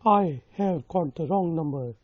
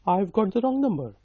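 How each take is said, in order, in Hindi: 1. 'I have' पूरा बोला जाता है, दो शब्दों के रूप में। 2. 'I have' एक छोटे से शब्दांश में संक्षिप्त हो जाता है। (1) "लेकिन आप कह सकते हैं कि" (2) "नेटिव स्पीकर्स होते हैं आपने देखा होगा वो आईव कहते हैं"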